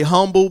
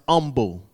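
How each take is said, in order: First: The word begins with an audible h sound. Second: The word begins with no h sound. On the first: This is the usual American way of saying it. "Here in America, we say humble" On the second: This is the older French-derived way of saying it. "it's not foreign for it to be pronounced humble"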